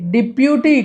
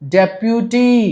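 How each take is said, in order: First: The first syllable is said as 'dih'. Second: The first syllable is said as 'deh'. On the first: The speaker calls it wrong. "డిప్యూటీ కాదు" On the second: The speaker calls it right.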